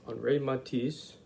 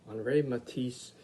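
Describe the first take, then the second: No difference in how they are said.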